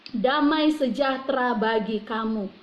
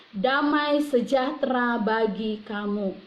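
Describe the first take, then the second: The two takes are said the same way.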